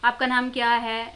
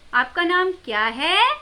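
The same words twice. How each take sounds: First: It is said flatly, without a question tone. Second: It is said with a clear questioning tone.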